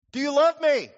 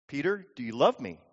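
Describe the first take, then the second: First: "do you love me" pitched high and pressed hard; insistent question. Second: Said in the usual way. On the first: Acted. Jesus asks Peter one more time, insistent on "do you love me". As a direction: push "do you love me" higher, every word firm.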